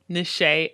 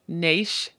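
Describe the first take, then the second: First: The name is said with two syllables. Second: The name is said with one syllable. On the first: The speaker calls it right. "how to correctly pronounce our names" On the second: The speaker calls it wrong. "which could be pronounced Nash"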